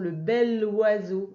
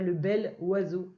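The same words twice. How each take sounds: First: The consonant links smoothly into the next word. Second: The words are said separately without a liaison. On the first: The speaker calls it right. "on fait aussi la liaison, le bel oiseau" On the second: The speaker calls it wrong. "et pas le bel oiseau"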